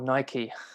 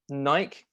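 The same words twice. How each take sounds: First: It uses the North American pronunciation of the name. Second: It uses a non-North American pronunciation of the name.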